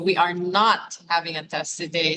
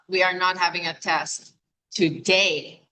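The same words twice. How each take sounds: First: The word not carries the main stress. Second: The word today carries the main stress. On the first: There is definitely no test today. "So the emphasis on not" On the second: The test is on another day. "which means not today"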